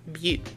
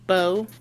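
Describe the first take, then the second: First: The vowel sounds like 'oo'. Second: The vowel sounds like 'oh'. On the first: This is how the owner says the name. The speaker calls it right. "And I say Bu" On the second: This is how other people say the name. The speaker calls it wrong. "people say in my name, it's Bo"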